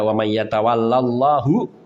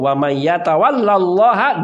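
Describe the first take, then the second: First: Allah ends with an u vowel. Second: Allah ends with an a vowel. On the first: God befriends that person. The speaker calls it wrong. "Kalau dibaca wa may yatawallallahu ... Jadi terbalik" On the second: That person befriends God. The speaker calls it right. "Tapi kalau wa may yatawallallaha"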